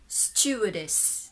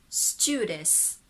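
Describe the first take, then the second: Both takes have the same delivery.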